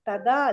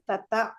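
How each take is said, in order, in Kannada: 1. ಎರಡನೇ ವ್ಯಂಜನ ಅಲ್ಪಪ್ರಾಣ. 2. ಎರಡನೇ ವ್ಯಂಜನ ಮಹಾಪ್ರಾಣ. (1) "ತದಾ ಅಲ್ಲ" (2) "ಥಾ ದೊಡ್ಡ ಥ"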